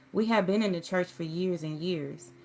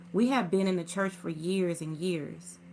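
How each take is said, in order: No difference in how they are said.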